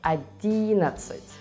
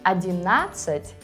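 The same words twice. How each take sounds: First: The stress falls before the 'na' syllable. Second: The stress falls on the 'na' syllable. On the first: The speaker calls it right. "but in Russian it is" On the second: The speaker calls it wrong. "is a very common mistake"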